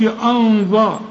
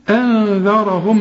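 First: أنذر with a thick, dark hamza and dhal like ظا; mock the mistake, أنذر said heavy; wrong heavy version. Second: أنذرهم drawn out with a thin hamza and light dhal. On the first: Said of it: "ما تقولش أنذر". (أنذر بتفخيم الهمزة والذال غلط) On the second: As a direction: say أنذرهم slowly with thin vowels. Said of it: "الهمزة احنا اتفقنا انها مرققة". (أنذرهم بهمزة وذال مرققة) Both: Shown as a demonstration.

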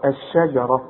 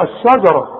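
First: الشجرة lower, thin she and heavy only on ra; correct light sheen. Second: الشجرة with sha dark and thick; wrong heavy sheen. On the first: Quran teacher gives correct الشجرة, light sheen, heavy ra. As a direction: keep الشجرة light until the full final ra. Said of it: "الراء هي المفخمة". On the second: Quran teacher shows the error in الشجرة, heavy sheen. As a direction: push الشجرة out with a heavy a after sh. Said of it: "ما تقولش بقى ايه؟". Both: Shown as a demonstration.

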